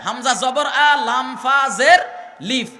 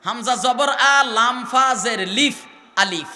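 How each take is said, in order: First: Slow letter-by-letter spelling with a laugh; spelled-out letters. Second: Slow teacher's letter-by-letter spelling of আলিফ; spelled-out letters. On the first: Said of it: "শুধু আলিফ উচ্চারণ করতে কয়টা অক্ষর লাগে". (হাসি মিশিয়ে আলিফের ধীর বানান) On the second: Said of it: "উচ্চারণ করতে তিনটা অক্ষর লাগে". (আলিফ শব্দটি অক্ষর ধরে ধীরে বানান করে বলা) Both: Shown as a demonstration. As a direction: spell "আলিফ" slowly as হামজা জবর আ, লাম ফা জের লিফ.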